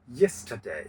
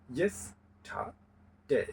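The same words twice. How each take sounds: First: Said in the usual way. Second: "yesterday" slow and softer, in three separated parts; split into syllables. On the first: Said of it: "সেটা হয়ে যাবে ট্রাইসিলেবল". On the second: Shown as a demonstration. Teacher showing three syllables, "yesterday" slowly split with pauses. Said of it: "তিনটি syllable আছে".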